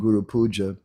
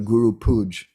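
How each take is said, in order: First: The final vowel of the last word is sounded. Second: The final vowel of the last word is dropped. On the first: The speaker calls it right. "instead of saying Guru Puja" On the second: The speaker calls it wrong. "devotees saying things like"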